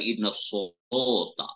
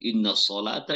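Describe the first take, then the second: First: The vowels are shifted toward 'o'. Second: The vowels are said as plain 'a'.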